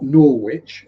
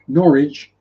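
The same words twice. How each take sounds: First: It is said with an American pronunciation. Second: It is said with a British English pronunciation. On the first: The speaker calls it wrong. "not Norwich as Americans try to pronounce it" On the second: The speaker calls it right. "Norwich in English"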